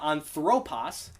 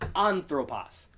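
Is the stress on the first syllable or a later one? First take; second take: later; first. First: The stress falls on a later syllable. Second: The stress falls on the first syllable. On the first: The speaker calls it wrong. "Notice it's not anthropos" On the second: The speaker calls it right. "Because that acute is on that first syllable"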